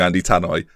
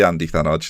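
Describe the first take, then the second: First: The surname is said as 'Tannoy'. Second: The surname is said as 'Thanoj'. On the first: The speaker calls it wrong. "which isn't even close" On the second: The speaker calls it right. "so it is Andy Thanoj"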